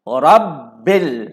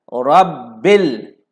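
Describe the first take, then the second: First: The b sound is held and doubled. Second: The same.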